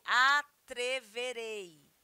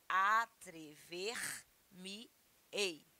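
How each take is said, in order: First: "atreverei" slow and louder, in one piece; base form. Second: "atrever-me-ei" very slow, split into parts; mesoclisis demo. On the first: Teacher to students, giving the plain future, slow. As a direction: say "atreverei" slowly and whole. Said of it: "Se fosse". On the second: Teacher to students, showing mesoclisis, slow. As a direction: break "atrever-me-ei" apart, slowly. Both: Shown as a demonstration.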